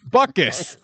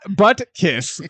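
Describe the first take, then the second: First: The middle T is soft or barely pronounced. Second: The middle T is pronounced hard and clear. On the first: The speaker calls it right. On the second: The speaker calls it wrong.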